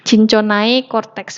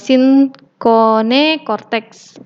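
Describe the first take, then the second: First: The first word ends with an 'ai' sound. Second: The first word ends with an 'e' sound. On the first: The speaker calls it wrong. "ejaannya kita baca Cinchonai, Cinchonai cortex bukan ya" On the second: The speaker calls it right. "A E ini dibaca E"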